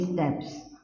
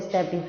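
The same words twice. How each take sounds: First: "स्टेप्स" as one syllable, steps; "स्टेप्स" with no vowel between p and s; one-syllable stapes. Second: "स्टेपीज" as STAY-peez; "स्टेपीज" in two syllables, ending -peez; two-syllable stapes. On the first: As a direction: say "स्टेप्स" like English steps, ending in -ps. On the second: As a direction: say "स्टेपीज" with a long ee after the p. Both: Shown as a demonstration. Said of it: "बहुत से लोग इसको स्टेपीज भी बोलते हैं".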